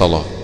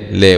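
First: The L sound is heavy and thick. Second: The L sound is light and thin. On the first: The speaker calls it wrong. "وليس لا" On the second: The speaker calls it right. "يظلى لا وليس لا"

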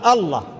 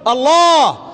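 First: The word is clipped, with part of it dropped. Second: The word is pronounced fully and carefully. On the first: The speaker calls it wrong. "لا تقدم لله لثغة لسان ولا شطر كلمة، ... لا تقل الله" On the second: The speaker calls it right. "قل الله"

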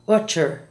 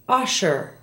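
First: The middle consonant is a sharp ch sound. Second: The middle consonant is a soft sh sound. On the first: The speaker calls it wrong. "not utcher" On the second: The speaker calls it right. "Listen to the following SH words"

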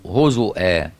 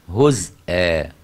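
First: The word has a glottal stop after the u vowel. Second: The word has a glottal stop right after z. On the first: This is the reading of the remaining reciters. "يعني الهمزة على واو" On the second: This is the reading of two other reciters. "أما حمزة وخلف يقرأ إيه؟"

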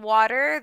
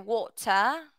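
First: It is said in an American accent. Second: It is said in a British accent, longer vowel.

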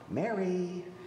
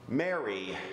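First: The name is said in a gentle, rousing tone. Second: The name is said in an annoyed, scolding tone. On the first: He is waking a child for school. The speaker calls it right. "the parent waking up the child for school voice" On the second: He wants Mary to stop talking in class. The speaker calls it wrong. "There's the irritated teacher voice"

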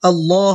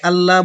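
First: The l sound is heavy and full. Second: The l sound is light and thin. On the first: The speaker calls it right. "এই লামটা পুরো হবে, আল্লাহ হবে" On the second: The speaker calls it wrong. "আল্লাহ বলবো না"

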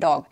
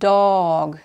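First: The word is said quickly as one unit. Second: The word is said slowly with sounds stretched. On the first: "एक word की तरह से बोला है" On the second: "अगर हम इसको धीरे बोलेंगे"

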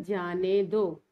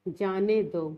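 Both takes have the same delivery.

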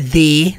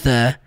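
First: The vowel sounds like an 'e'. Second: The vowel sounds like a short 'a'. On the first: The speaker calls it wrong. "não é the, som do e, não" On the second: The speaker calls it right. "som do a"

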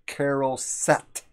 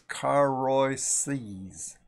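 First: The word ends with a hard t sound. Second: The word ends with an s sound. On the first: This is the later common pronunciation. "they just pronounce it as a hard T" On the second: This is a pronunciation used in some communities. "like Moses"

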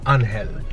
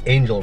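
First: The name is said with a Spanish pronunciation. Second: The name is said with an English pronunciation. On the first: "in Spanish it's Angel" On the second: "in English it's Angel"

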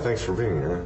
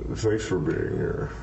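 First: It is said in a plainer, non-creepy voice. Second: It is said in a creepy, put-on voice.

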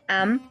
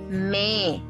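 First: The letter is said as 'em', vowel first. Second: The letter is said as 'me', consonant first. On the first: The speaker calls it wrong. "It's not M" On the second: The speaker calls it right. "it's me"

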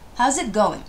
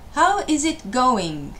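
First: How is is contracted into one syllable. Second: How is is said as two full words. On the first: The speaker calls it right. "How's it going? ですね" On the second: The speaker calls it wrong. "How is it going? ではないです"

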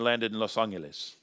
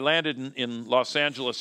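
First: It is said with a Spanish accent. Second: It is said with an ordinary English accent.

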